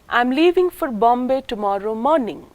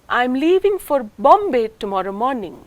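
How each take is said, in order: First: The main stress falls on the word morning. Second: The main stress falls on the word Bombay. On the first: "the first syllable of the word morning is the nucleus or the tonic syllable" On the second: "Not for any other city but Bombay"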